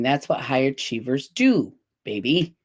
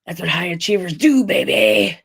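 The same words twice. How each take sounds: First: It is read in a normal voice. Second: It is said in a Wedding Crashers impression.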